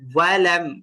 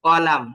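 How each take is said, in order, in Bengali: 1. এটি গোলাকার ঠোঁটের w ধ্বনি দিয়ে শুরু হয়। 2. এটি ঠোঁট গোল না করে উচ্চারিত সাধারণ স্বরধ্বনি দিয়ে শুরু হয়। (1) "ওয়াও উচ্চারণ করবেন মুখটাকে গোল করে" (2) "যদি মুখ গোল না করেন তখন এটা কিন্তু আলিফ হওয়ার সম্ভাবনা আছে।"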